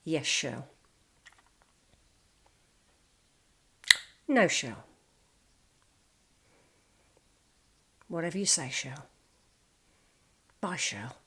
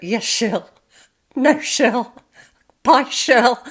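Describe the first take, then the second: First: Quiet, resigned yes-dear replies with long pauses; meek henpecked husband. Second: Louder, higher hammed-up "Yes, Shirl" with falling ends; mock henpecked husband. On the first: Retold or imitated. Quiet boss answers wife Shirl on the phone, meekly. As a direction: mumble "Yes, Shirl" softly, giving in. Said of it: "because he'd go". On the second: Boss placating wife Shirl, hammed-up and louder. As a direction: ham up the yes-dear replies for laughs. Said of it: "he just went".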